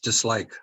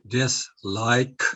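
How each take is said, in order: First: The word is said fast. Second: The word is said slowly.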